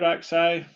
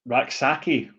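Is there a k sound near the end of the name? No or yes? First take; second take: no; yes. First: The name ends without a k sound. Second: The name has a k sound before the end. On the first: The speaker calls it wrong. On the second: The speaker calls it right.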